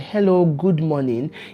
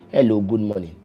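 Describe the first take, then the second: First: It is said warmly, with a smile. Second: It is said coldly, with a frown. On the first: "When you look at somebody and you smile" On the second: "when you are frowning your face"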